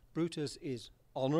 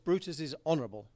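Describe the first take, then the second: First: It is said with a questioning, rising tune. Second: It is said with a flat, level tune. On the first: His honour is put in doubt. "I use the question mark" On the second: He really is honourable. "I do it flatly like that"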